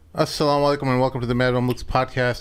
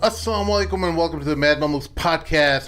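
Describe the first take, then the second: First: It is said with low energy. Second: It is said with higher energy.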